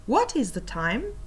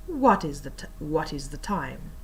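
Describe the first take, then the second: First: Rising question tune on "time"; "time" lifted into a clear question; upward inflection. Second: Low, soft, falling to "time"; "time" sinking like a statement; downward inflection. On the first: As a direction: let "time" climb at the end. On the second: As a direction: drop the voice on "time", no question lift. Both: Shown as a demonstration. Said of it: "compare these two".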